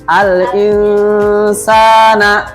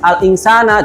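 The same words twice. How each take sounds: First: The vowel is held long for three beats. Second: The vowel is said quickly and cut short. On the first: The speaker calls it right. "ya ditahan ya" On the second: The speaker calls it wrong. "jangan al insana, jangan jangan cepet-cepet"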